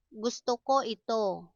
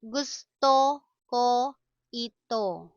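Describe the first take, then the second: First: Said in the usual way. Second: Word by word with pauses. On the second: Shown as a demonstration. Slow model, then natural speed.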